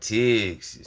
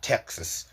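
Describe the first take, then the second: First: The word is drawn out and stretched. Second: The word is said short and clipped. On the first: The speaker calls it right. "You gotta stretch that motherfucker out" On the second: The speaker calls it wrong. "not Texas"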